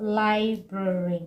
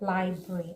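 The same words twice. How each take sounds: First: The word is said with three syllables. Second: The word is said with two syllables. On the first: The speaker calls it wrong. "making it three syllable" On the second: The speaker calls it right. "it is a two syllable word"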